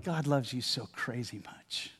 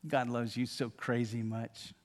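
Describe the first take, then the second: First: Hushed and close, like into an ear; tender soft words for the listener; soft whisper. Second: Hushed, slower; soft whisper. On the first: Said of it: "would love to be able to whisper in your ear". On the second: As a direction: say it softly again, close to the ear. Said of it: "whisper in your ear". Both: Pretend.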